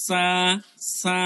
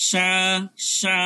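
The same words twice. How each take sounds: First: সা with a light, thin s and long vowel. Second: সা said as "shaa", with a full sh; thick sha. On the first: Teacher contrasting with sha, light sa. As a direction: keep the s of সা light, not sh. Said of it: "কিন্তু সাটা হালকা". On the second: Teacher contrasting two letters, thick sha. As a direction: turn the s of সা into a broad sh. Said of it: "এখন যদি আমি সা বলি". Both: Shown as a demonstration.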